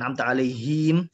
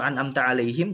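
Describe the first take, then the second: First: A short vowel is stretched long. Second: The short vowels are kept short. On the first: The speaker calls it wrong. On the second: The speaker calls it right.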